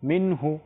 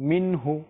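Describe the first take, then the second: The two takes are said the same way.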